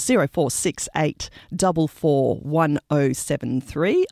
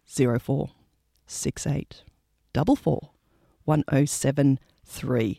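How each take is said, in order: First: The number is said at normal speed. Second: The number is said slowly.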